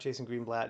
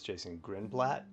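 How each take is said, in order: First: The surname's first syllable sounds like 'green'. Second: The surname's first syllable sounds like 'grin'. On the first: The speaker calls it wrong. "His name is not Jason Greenblatt" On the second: The speaker calls it right. "it's Jason Grinblatt, is my understanding of how to pronounce that"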